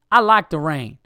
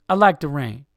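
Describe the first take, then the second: First: Mock Southern voice, punched out loud; Southern accent. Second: Loud, punched-out mock tough voice; second-try impression landing as a fighter; boxer before a fight. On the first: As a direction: imitate a curt woman with a Southern accent. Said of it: "I just did a Southern accent". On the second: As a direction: say it like a boxer squaring up. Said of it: "That just sounded like a boxer before a fight".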